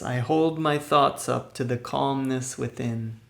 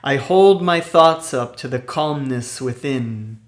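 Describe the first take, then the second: First: It is said at ordinary speaking volume. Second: It is said loudly and with high energy. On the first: "in a regular speaking voice" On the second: "in a loud, energetic voice"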